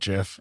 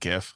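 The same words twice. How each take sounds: First: The word begins with a J sound. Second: The word begins with a hard G sound. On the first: "I can't call it GIF. It's, it's like, like the peanut butter" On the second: "I've always said GIF"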